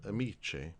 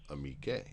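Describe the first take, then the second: First: The consonant is a soft ch sound. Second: The consonant is a hard k sound. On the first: "you would have to pronounce it" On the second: "add the H before the E in order to maintain the hard C"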